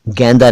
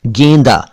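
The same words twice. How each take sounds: First: "गेंदा" mispronounced as GAEN-da; broad ai in "गेंदा"; wrong open vowel. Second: "गेंदा" corrected to GEYN-da; correct close vowel. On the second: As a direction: say "गेंदा" with a narrow ay. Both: Shown as a demonstration. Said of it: "गेंदा नहीं".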